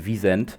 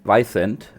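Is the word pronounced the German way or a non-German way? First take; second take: German; non-German. First: The word is said with a German pronunciation. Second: The word is said with a non-German pronunciation. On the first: "how it's really pronounced" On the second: "if you are not uh, a German person or a, or a Polish person, you might pronounce it"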